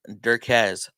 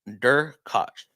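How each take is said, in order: First: The name ends with a z sound. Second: The name ends with a ch sound. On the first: This is how people usually say it. "usually say it's" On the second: This is the proper pronunciation. "proper pronunciation is more like"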